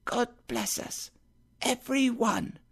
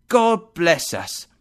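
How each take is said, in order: First: Put-on high, soft little boy's voice; a sickly child echoing his father gently; Tiny Tim echoing his father softly, high and light; small child. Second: Slow, louder, raised mug blessing; Bob's toast to his family; father's toast. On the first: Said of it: "said Tiny Tim". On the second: Acted. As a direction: bless the family slowly and firmly. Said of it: "He held up his own and said".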